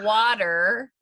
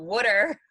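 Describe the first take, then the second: First: Water is said without a Philadelphia accent. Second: Water is said with a Philadelphia accent. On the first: "For any of you listening on Krista's Coast" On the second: "here in Philadelphia"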